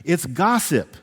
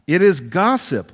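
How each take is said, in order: First: Said in the usual way. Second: "It is gossip" with weight on "is"; stress on is. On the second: Shown as a demonstration. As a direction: lean on "is", said louder. Repeats phrase for emphasis.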